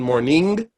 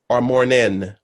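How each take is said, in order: First: The word ends with a full 'ng' sound. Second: The word ends with a plain 'n' sound. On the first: "the first iteration" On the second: "what's written in the score mornin, M O R N I N"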